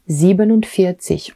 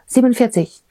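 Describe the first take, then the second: First: It is said slowly, each part marked separately. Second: It is rushed out quickly as one blur. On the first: The speaker calls it right. "je décompose mon unité, mon und et ma dizaine quand je le prononce" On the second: The speaker calls it wrong. "Ça fait pas ah, ... Non, ça marche pas comme ça"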